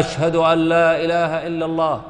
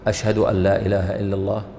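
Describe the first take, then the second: First: It is said in a raised, loud voice. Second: It is said in a low, quiet voice.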